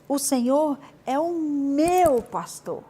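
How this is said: The word pastor carries the emphasis. I have a shepherd who cares for me. "Você deu uma ênfase no meu pastor"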